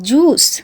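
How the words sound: The word ends on the s sound. This is how Bengali speakers say it. "আমরা তো সবসময় জুসটারে জুসই কই।"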